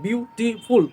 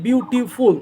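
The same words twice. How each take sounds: First: বিউটিফুল broken into three beats, বিউ-টি-ফুল; split into syllables. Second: Said in the usual way. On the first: Shown as a demonstration. Teacher showing three syllables to pupils, বিউটিফুল split in three. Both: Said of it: "মানে তিনটে syllable হয়ে গেলো".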